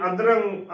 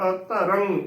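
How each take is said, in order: First: ਅਧਰੰਗ squashed into adrang; mistaken joined pronunciation. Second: ਅਧਰੰਗ as a-tarang, three syllables; correct separated pronunciation. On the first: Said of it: "ਗਲਤ ਉਚਾਰਨ ਹੋਵੇਗਾ". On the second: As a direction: set the first a of ਅਧਰੰਗ apart. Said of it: "ਐੜਾ ਅਲੱਗ ਬੋਲ ਕੇ". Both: Shown as a demonstration.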